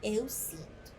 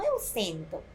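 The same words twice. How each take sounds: First: "eu sinto" with i, given as the right form; "eu sinto" stated as the correct irregular. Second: Rejected form "eu sento" with open e, said as the mistake; "eu sento" marked as the form not to use; wrong form. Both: Shown as a demonstration. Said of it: "Não eu sento".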